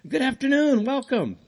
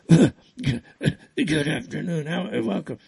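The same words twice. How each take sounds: First: The greeting sounds bright and cheerful. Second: The greeting sounds low-energy and weary. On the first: The speaker feels healthy again. "I'm feeling so much better now" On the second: The speaker was struggling with illness. "Before I was like"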